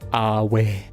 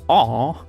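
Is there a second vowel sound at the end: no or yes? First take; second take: yes; no. First: It ends with an extra vowel sound. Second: It is one vowel, with no extra sound after it. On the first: "you pronounce the E" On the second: "like disappointment?"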